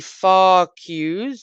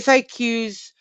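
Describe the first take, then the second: First: The acronym is said very slowly. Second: The acronym is said at a normal pace.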